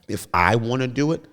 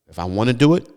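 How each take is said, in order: First: The phrase is spoken slowly and deliberately. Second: The phrase is spoken at a normal pace.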